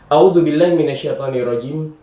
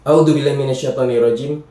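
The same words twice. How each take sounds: Both takes have the same delivery.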